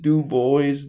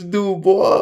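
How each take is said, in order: First: The name is said with an English pronunciation. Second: The name is said with a French pronunciation. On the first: This is how the man himself said his name. "That's how he pronounced it" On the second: This is how French speakers would say the name. "French people will be like, it's Du Bois"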